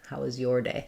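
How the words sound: The stress falls on the word your. The speaker calls it right. "You would change to be stressing on your then"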